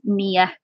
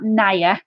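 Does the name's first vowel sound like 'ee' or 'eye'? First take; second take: ee; eye. First: The first vowel sounds like 'ee'. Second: The first vowel sounds like 'eye'. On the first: The speaker calls it right. "it's Nia, as in like near and far" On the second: The speaker calls it wrong. "It's not Naya"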